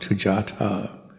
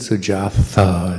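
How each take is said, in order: First: The consonant is a t sound. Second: The consonant is a soft English th sound. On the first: The speaker calls it right. "it's Tujatha" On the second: The speaker calls it wrong. "his name isn't Sujatha"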